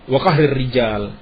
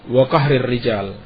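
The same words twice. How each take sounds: Both takes have the same delivery.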